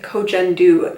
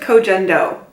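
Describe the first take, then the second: First: The name ends with an 'oo' vowel. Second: The name ends with an 'oh' vowel. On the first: Another person says it this way. The speaker calls it wrong. "I've also heard somebody pronounce it Kojendu lately" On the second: This is the speaker's preferred way. The speaker calls it right. "I'm going to stick with Kojendo because that sounds better to me"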